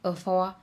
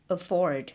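First: One sound of the word is left out. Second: Every sound of the word is pronounced. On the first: The speaker calls it wrong. "mà các bạn phát âm là afford" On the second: The speaker calls it right. "Các bạn phải là phát âm là afford"

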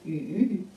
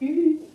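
First: The pitch dips low, then rises. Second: The pitch stays high and level. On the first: "三声鱼" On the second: "一声鱼"

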